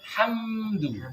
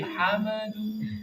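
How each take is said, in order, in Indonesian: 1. Bunyi m langsung menyambung ke d, tanpa vokal. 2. Ada vokal tambahan yang terdengar antara m dan d. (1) "yang benar hamdu" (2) "hamadu sudah dibuka dulu sebelum dal keluar"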